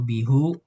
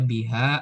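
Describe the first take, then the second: First: The word ends with a u vowel. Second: The word ends with an a vowel. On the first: "atau bihu" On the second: "nggak mungkin dibaca biha"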